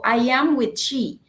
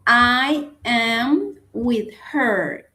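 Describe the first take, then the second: First: Said in the usual way. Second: "I am with her" slowly, word by word; slow model sentence. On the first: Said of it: "No digo". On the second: Shown as a demonstration. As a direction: spell out the correct sentence slowly. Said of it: "entonces digo".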